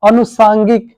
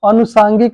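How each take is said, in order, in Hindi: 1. पहला स्वर छोटा है। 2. पहला स्वर छोटा है।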